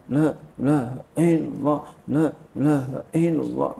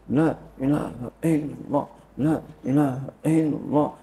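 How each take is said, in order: Both takes have the same delivery.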